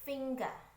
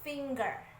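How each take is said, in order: First: It is said with a British accent. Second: It is said with an American accent. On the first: "Kalau British biasanya finger" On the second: "Most Americans say like that"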